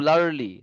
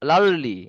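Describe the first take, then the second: Both takes have the same delivery.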